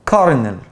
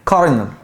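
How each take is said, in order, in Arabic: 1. الوسط فيه صوت ر. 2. الوسط فيه صوت ر.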